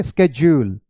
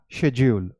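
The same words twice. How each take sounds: First: स्केड्यूल said "SKEJ-yool"; American sk form. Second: शेड्यूल said "SHEJ-yool"; British sh form. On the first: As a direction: start स्केड्यूल with sk, then a j. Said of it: "आप स्केड्यूल बोलेंगे". (स्केड्यूल का अमेरिकी "स्केज्यूल" उच्चारण) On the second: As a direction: start शेड्यूल with sh, then a j. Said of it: "British English में आप शेड्यूल बोलेंगे". (शेड्यूल का British "शेज्यूल" उच्चारण) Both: Shown as a demonstration.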